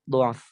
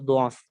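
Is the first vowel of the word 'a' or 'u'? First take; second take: u; u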